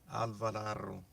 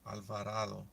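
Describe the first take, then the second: First: The name is said with a Spanish pronunciation. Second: The same.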